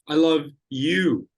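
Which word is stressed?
you. The word 'you' carries the stress. "not Sandra"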